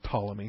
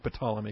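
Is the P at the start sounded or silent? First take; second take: silent; sounded. First: The word starts with a silent P. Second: The word starts with a sounded P. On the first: This is the usual way most people say it. "Most folks call it Ptolemy with a silent P" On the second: This is a personal, unusual habit. "I just do Ptolemy because I'm goofy"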